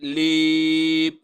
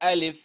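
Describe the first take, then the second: First: The word ends with a p sound. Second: The word ends with an f sound. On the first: The speaker calls it wrong. "لیپ غلط وي" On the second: The speaker calls it right. "څه به وایو؟"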